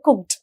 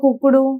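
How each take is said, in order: First: The word ends cleanly on the final consonants. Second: An extra vowel is added after the final consonants. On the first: The speaker calls it right. "అలా పలకాలి" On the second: The speaker calls it wrong. "కుక్కుడు, లుక్కుడు ఇట్లాంటివి ఉండకూడదు"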